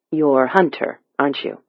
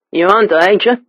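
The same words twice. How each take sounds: First: Said in the usual way. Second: Thick Cockney, pitched higher; Cockney accent. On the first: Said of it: "but Alex understood him". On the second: A narrator's reading. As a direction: speak it as a rough London Cockney stranger. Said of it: "The stranger's Cockney accent was nearly impenetrable".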